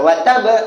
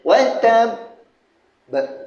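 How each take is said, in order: First: The final b is short and single. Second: The final b is held and doubled. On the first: The speaker calls it wrong. "itu satu. Wa tab itu tak ada sabdu" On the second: The speaker calls it right. "dia gantungkan kejap dalam dua saat ke"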